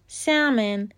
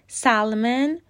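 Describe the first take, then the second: First: The L is silent and not pronounced. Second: The L is clearly pronounced in the middle. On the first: The speaker calls it right. "تلفظ درستش سامن" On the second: The speaker calls it wrong. "هیچ کدوم درست نیستن"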